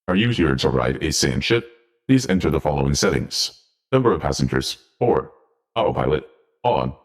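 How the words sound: It is said in a put-on robotic AI voice.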